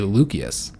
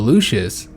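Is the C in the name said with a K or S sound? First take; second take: K sound; S sound. First: The C is said with a hard K sound. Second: The C is said with a soft S sound. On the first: The speaker calls it right. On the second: The speaker calls it wrong.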